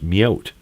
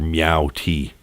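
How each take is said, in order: First: It is said as one blended syllable, meowt. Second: It is said as meow plus the letter T. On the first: The speaker calls it right. "oh, it's Meowt. That makes sense" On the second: The speaker calls it wrong. "I was pronouncing it here Meow T"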